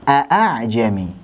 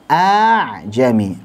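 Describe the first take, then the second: First: Both glottal stops are fully and clearly pronounced. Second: The second hamzah becomes a long drawn vowel. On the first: "Kalau hamzah-hamzah muhaqqaqah a'a" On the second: "Kalau hamzah dengan mat a'jami, a dibaca panjang"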